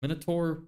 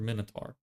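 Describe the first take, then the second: First: Minotaur, ending rhymes with "more"; Minotaur with -tor ending. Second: Minotaur, ending rhymes with "car"; minotaur with -tar ending. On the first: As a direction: finish Minotaur on an "or" sound. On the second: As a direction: finish minotaur on an "ar" sound. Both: Shown as a demonstration. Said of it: "Minotaur or minotaur?".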